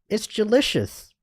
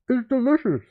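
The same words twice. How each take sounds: First: It is said clearly with an empty mouth. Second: It is said with a mouth full of food.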